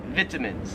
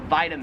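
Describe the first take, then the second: First: "vitamins" as VIT-a-mins; short i opening "vitamins"; Australian pronunciation. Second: "vitamins" as VY-ta-mins; long i like eye in "vitamins"; American pronunciation. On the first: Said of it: "but they pronounce it". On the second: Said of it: "pronounce this word this way". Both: Shown as a demonstration.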